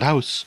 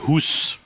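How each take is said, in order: First: The vowel sounds like 'ow' in 'house'. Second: The vowel sounds like 'oo' in 'moose'. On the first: The speaker calls it wrong. "not house" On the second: The speaker calls it right. "how you pronounce it, Hoos"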